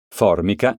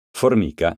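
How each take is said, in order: First: Formica said as FORmica, first syllable stressed. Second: Formica said as forMIca, middle syllable stressed. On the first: Teacher contrasting homographs for pupils, FORmica stressed. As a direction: hit FOR in Formica. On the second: Teacher contrasting homographs for pupils, forMIca stressed. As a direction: lean on MI of Formica. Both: Shown as a demonstration. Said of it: "Eccone alcuni esempi".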